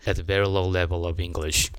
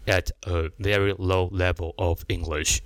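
First: The words are linked together smoothly. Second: The words are said separately, in a choppy way. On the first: The speaker calls it right. "at 跟a 连在一起，跟level 跟of 连在一起" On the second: The speaker calls it wrong. "断断续续的"

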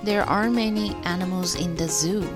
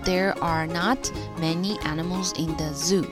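First: 'Are not' is contracted into one word. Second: 'Are not' is said as two full words. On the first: "口语上就是合起来" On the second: "就是are not"

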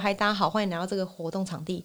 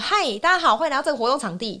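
First: It is said with less energy. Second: It is said with hyped-up energy.

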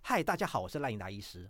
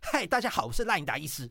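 First: The voice is relaxed and easy. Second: The voice is forceful, tight and strained.

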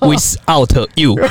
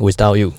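First: Each syllable is split apart, Taiwanese-style. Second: It is said as smooth, connected English.

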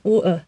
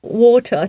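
First: The t sound in the middle is dropped. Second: The t sound in the middle is clearly pronounced. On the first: "他那个T 就不会发出来" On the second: "他会发出T 的音"

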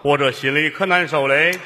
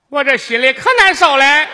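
First: It is said in a male voice. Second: It is said in a put-on female voice.

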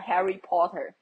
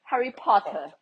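First: It is said without a British accent. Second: It is said with a British accent. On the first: "我平常都会讲Harry Potter" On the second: "你干嘛变英国腔？"

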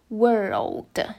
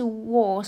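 First: The vowel is only a curled R sound. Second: The vowel has a rounded O-like sound. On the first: The speaker calls it right. "是world，都只有r 的音" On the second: The speaker calls it wrong. "世界不是world"

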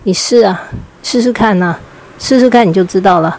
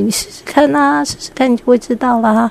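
First: It sounds hostile and threatening. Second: It sounds cheerful and encouraging.

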